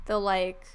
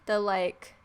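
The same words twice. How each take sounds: The two takes are said the same way.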